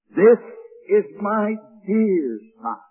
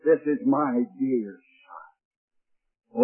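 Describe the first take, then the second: First: Put-on proclaiming "This" with a strong accent; stress on This. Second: Slow, soft and hushed "This is my dear Son"; a tender whispered-down reverence. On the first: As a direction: hit "This" hard, then settle on "is my dear Son". Preacher quotes God's words. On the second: Acted. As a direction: savour each word quietly, lovingly. Preacher repeats God's words softly.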